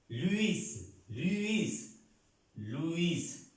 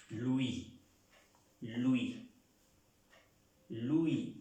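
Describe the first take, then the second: First: "Luis" with a clearly sounded final S; S final pronunciada. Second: "Louis" as "lu-í", final S silent; S final muda. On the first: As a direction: say "Luis" slowly, higher, ending on an audible S. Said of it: "Luis en español se pronuncia". ("Luis" a la española, con la S final bien marcada) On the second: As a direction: stop "Louis" on the i, leaving off the S. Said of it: "la S no se pronuncia". ("Louis" a la francesa, "luí", sin pronunciar la S) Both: Shown as a demonstration.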